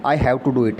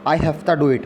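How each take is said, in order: First: 'Have to' is said as two full words. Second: 'Have to' is reduced to 'hafta'.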